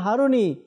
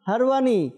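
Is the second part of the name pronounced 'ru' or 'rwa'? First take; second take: ru; rwa. First: The name is said as Haruni, with 'ru'. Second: The name is said as Harwani, with 'rwa'. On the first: This is the common popular form. The speaker calls it wrong. "আমরা বলি খাজা Usman হারুনি" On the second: This is the name's true form. The speaker calls it right. "সঠিক উচ্চারণ হারওয়ানি"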